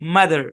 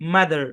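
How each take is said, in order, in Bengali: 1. শেষের r ধ্বনিটি স্পষ্টভাবে উচ্চারিত হয়। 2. শেষের r ধ্বনিটি স্পষ্টভাবে উচ্চারিত হয়।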